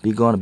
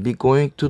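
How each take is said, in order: First: "gonna" run together as one quick word; teacher shows students the spoken form, "gonna" said fast and reduced; colloquial gonna. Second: Said in the usual way. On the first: Shown as a demonstration. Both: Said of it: "구어체에서".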